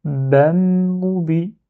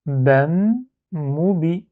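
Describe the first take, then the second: First: "bam, moubi" run together with no break; "bam, moubi" as one word, doubled m held; joined in one go. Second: "Bam" and "moubi" said apart, a pause between; two separate syllables. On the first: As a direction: hum the long m from "bam" straight into "moubi". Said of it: "prononcer en un seul syllabe". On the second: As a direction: finish "Bam", stop, then say "moubi". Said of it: "j'enlève les deux syllabes". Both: Shown as a demonstration.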